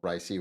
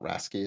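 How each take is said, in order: First: It is said as 'racy', without a k sound. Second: It is said as 'rasky', with a k sound.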